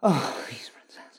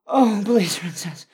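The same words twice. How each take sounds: First: Whispering. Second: High loud begging cry; loud pleading. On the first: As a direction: breathe it out in a whisper. Whispered plea. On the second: Loud plea. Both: Acted.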